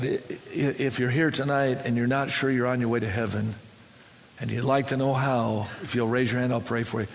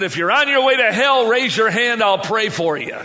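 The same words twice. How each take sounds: First: Low, earnest altar call; more serious. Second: Loud, high burst easing off by the end; frustrated holler. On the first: Preacher inviting five men to be saved, low and serious. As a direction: drop low and make the offer sincerely. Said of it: "I got a little more serious". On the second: Fed-up preacher giving the altar call, frustrated holler. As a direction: fire it out in exasperation. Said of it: "exactly what I said and how I said it". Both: Retold or imitated.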